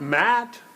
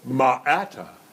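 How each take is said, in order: First: The consonants are blended with no added vowels. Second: Extra uh vowels are added after each consonant. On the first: The letters were blended into the real word. The speaker calls it right. "But it's not Matt" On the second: The letters were sounded out with added vowels. The speaker calls it wrong. "you're going to go ma'ata"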